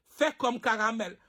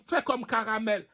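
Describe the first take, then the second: No difference in how they are said.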